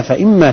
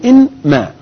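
First: Said in the usual way. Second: "إن ما" as two separate words, raised in pitch; نطق مفصول. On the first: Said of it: "أصله إن ما". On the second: Shown as a demonstration. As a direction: pull "إن" apart from "ما", noon clearly sounded. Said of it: "أصله". ("إن ما" مفصولة بنون ظاهرة)

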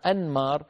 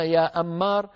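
First: أنمار as an-maar, N sounded before M; clear noon. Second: أمار called as am-maar, doubled M; merged noon. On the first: Teacher names a person, أنمار with a clear N. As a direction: keep the N distinct in أنمار. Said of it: "بالنون". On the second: Teacher shows the confusing merged name, أمار with long M. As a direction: hold the M in أمار with the N gone. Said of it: "لو أدغمنا لقلنا". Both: Shown as a demonstration.

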